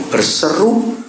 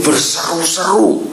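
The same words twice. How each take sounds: First: Berseru with a light rising listing tune; listed berseru. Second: Berseru-seru slow and high; berseru-seru dengan tekanan; stressed berseru-seru. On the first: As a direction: count off Berseru as the first step. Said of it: "tiga ini perhatikan". (Berseru dengan nada naik) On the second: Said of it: "three phases". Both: Shown as a demonstration.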